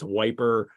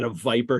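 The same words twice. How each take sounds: First: "wiper" said with a W sound in place of the V; Cockney W for V. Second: Said in the usual way. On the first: Shown as a demonstration. Podcaster showing how Doyle writes London dialect, "wiper" with a W for V. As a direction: swap the V for a W in "wiper", as in old Cockney. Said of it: "W's or, or V's or W's". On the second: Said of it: "or V's or W's".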